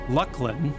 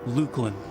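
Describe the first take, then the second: First: The first syllable sounds like 'luck'. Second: The first syllable sounds like 'luke'. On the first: This is how others insist it is said. "insistence that it's pronounced Lucklin" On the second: This is how the speaker used to say it. "I called it Lukelin"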